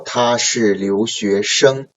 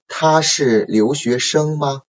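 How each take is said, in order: First: 他是留学生 read slowly, falling at the end; falling statement intonation. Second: 他是留学生吗 with the pitch rising on 吗 at the end; rising question intonation. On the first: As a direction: let 他是留学生 drop like a statement. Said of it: "it is like a down". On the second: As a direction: lift the final 吗 like a yes-no question. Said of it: "So the statement, ... upcoming intonation". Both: Shown as a demonstration.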